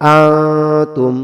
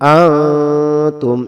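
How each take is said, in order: First: The n sound is hidden in a nasal hum. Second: The n sound is hidden in a nasal hum.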